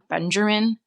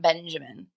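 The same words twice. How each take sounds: First: The name is said with an added R sound. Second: The name is said without any R sound. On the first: The speaker calls it wrong. "people say it with an R in it, like" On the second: The speaker calls it right.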